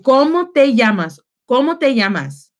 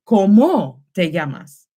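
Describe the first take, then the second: First: "Cómo" stressed on its first O; teacher's repeat-after-me, CÓ-mo stressed first; stress on first vowel. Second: "cómo" stressed on its last O, co-MÓ; deliberately misplace the stress onto the end of cómo; wrong-syllable stress. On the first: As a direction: model cómo clearly with the stress up front. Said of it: "you need to stress that vowel". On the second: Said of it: "if I stressed it and put the, the accent mark here". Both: Shown as a demonstration.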